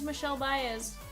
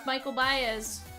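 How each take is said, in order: First: The first name sounds like Michel. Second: The first name sounds like English Michael. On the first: The speaker calls it right. "that was the correct pronunciation" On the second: The speaker calls it wrong. "We thought it was Michael Baez, but no"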